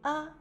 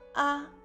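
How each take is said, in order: First: It is said lightly and briefly, without stress. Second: The pitch stays high and level throughout. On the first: "A au cinquième ton, il prononce légèrement et court" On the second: "A en premier ton, on ouvre la bouche assez grande que possible"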